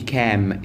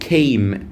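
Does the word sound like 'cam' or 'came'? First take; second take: cam; came. First: The word sounds like 'cam'. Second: The word sounds like 'came'. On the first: The speaker calls it wrong. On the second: The speaker calls it right.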